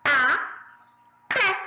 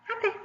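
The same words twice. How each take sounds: First: "Até" as two louder syllables with a long gap. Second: Said in the usual way. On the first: Shown as a demonstration. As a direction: split "Até" into a... té. ("Até" separado em duas sílabas fortes) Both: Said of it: "Vamos separar até?".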